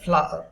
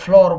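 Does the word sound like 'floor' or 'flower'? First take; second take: flower; floor. First: It is said with two syllables, like flower. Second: It is said with one syllable, like floor. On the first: The speaker calls it right. "પણ એનો ઉચ્ચાર થાય ફ્લાવર" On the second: The speaker calls it wrong. "જેને સામાન્ય રીતે લોકો ફ્લોર બોલતા હોય છે"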